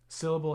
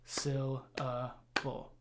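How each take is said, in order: First: Said in the usual way. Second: "syllable" split into three evenly timed beats. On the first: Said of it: "if we say the word". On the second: Shown as a demonstration. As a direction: break "syllable" apart, a gap after each syllable. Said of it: "give equal time to each syllables".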